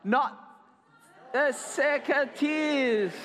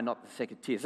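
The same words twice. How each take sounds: First: High, drawn-out wail of protest; demonstrated cry. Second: Said in the usual way. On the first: Shown as a demonstration. Storyteller shows children what to shout, crying out. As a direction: cry it out slowly, hamming it up. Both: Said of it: "I wanted you to cry".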